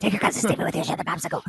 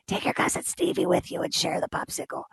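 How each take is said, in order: First: Hurried, laughing Sicilian grandpa rasp; fast Sicilian accent. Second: Raspy whispered Sicilian grandpa voice, breathy and hushed; thick Sicilian accent. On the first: Grandpa repeats his order to share, fast laughing Sicilian accent. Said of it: "very thick Sicilian accent". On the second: Grandpa tells the boy to share his popsicle, hushed Sicilian accent. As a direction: imitate a hoarse old Sicilian grandfather through a throat hole. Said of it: "He would say in his very thick Sicilian accent". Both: Retold or imitated.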